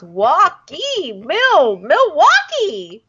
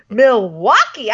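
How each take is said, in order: First: Milwaukee stretched out slowly; slow savoring. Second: Said in the usual way. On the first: Shown as a demonstration. Friend relishing the word Milwaukee, slow. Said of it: "I just like the way that sounds". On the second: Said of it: "they say it so many times".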